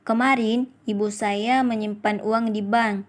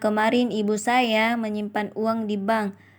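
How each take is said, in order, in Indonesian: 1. Tekanan ada pada kemarin. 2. Tekanan ada pada saya. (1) "Pada kalimat pertama mendapatkan tekanan pada kata kemarin" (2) "Kalimat ketiga mendapatkan tekanan pada kata saya"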